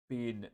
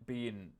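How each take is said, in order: Both takes have the same delivery.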